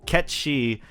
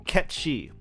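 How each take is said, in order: First: The name sounds like one word, Ketchi. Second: The same.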